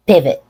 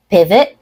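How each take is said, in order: First: "pivot" falling, with an unreleased final T; "pivot" cut off without releasing the T; stop T. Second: "pivot" rising, with a released final T; "pivot" ending on an audible T release; true T. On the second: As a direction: let the T pop at the end of "pivot". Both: Shown as a demonstration. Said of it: "stop T and a true T".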